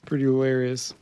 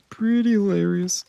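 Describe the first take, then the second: First: Said in the usual way. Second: Playfully high "Pretty hilarious"; high-pitched repeat. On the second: Pretend. Streamer repeats his remark for fun, high-pitched.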